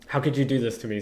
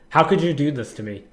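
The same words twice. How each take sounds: First: It is said calmly and quietly. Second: It is said much more loudly.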